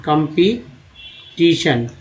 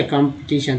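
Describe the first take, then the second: First: competition slowly, with pauses between parts; syllable by syllable. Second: Said in the usual way. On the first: Shown as a demonstration. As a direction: break competition into pieces for learners. Teacher splits word into parts. (Competition को धीरे-धीरे तोड़कर)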